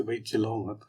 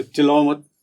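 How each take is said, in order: First: Softer, gentle hush; soft request. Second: Louder, firm command; firm order. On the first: Asking someone gently not to shout, softly. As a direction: ask gently. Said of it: "अब एक से". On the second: Scolding someone to stop shouting, firmly loud. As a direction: order it sharply. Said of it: "एक से". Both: Shown as a demonstration.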